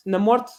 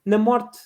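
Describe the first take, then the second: No difference in how they are said.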